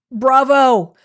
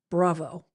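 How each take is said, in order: First: Bravo shouted out high and loud. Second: Said in the usual way. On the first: Shown as a demonstration. Host cheering a viewer for homework, loud bravo.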